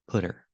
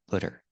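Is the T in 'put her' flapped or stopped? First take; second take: flapped; flapped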